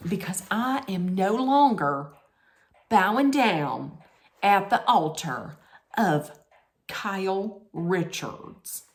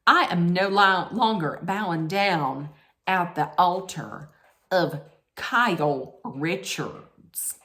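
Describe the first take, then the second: First: Put-on second go at a Southern accent; measured Southern accent, phrase by phrase. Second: Lightly put-on Southern accent, slowing at the end; mock-grand Southern accent, drawn out on the name; bad Southern accent. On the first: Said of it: "That's not that bad". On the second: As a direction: attempt a Southern drawl, poorly. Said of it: "That's the worst Southern accent".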